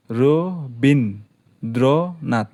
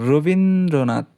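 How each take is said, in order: First: রবীন্দ্রনাথ slowly split into four beats; রবীন্দ্রনাথ broken into four slow syllables. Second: Said in the usual way. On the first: Shown as a demonstration. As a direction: draw out রবীন্দ্রনাথ one syllable at a time, very slow. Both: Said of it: "চারটে অক্ষর আছে".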